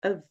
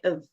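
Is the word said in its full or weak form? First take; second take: weak; weak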